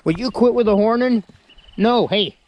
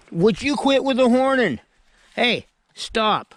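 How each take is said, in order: First: High loud exasperated scold. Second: Even higher exasperated scold; sharper scolding. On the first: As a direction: tell off a butting goat. Goat butting him with horns. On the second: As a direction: scold harder, pitch way up. Goat butting again. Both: Real, not acted.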